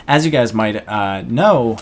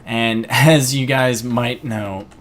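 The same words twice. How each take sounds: First: Said in the usual way. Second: Slow, voice giving out mid-line; words catching as the voice fails; voice cracking. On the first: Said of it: "I kinda lost my voice there". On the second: Real, not acted. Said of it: "I kinda lost my voice there for a moment".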